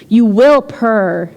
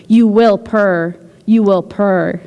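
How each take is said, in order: First: Slow, even chant of "You will purr."; hypnotic murmur. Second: Slow repeated chant of "You will purr." with "you" leaned on; hypnotic murmur. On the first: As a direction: lull them like a hypnotist, very slowly. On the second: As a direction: keep repeating it, lulling and slow. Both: Acted. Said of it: "in a hypnotic murmur".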